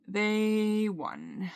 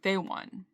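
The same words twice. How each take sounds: First: Long-held THEY, then WON trailing away; drawn-out, defeated. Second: Said in the usual way. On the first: Real, not acted. Admitting absolute defeat to the anxiety, drawn-out and resigned.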